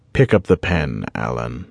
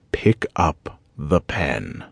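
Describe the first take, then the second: First: Said in the usual way. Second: Very slow, each word spaced out; drawn-out, menacing command; slow repeated order. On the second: A narrator's reading. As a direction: lay out each word like a final warning. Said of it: "please don't make me repeat myself".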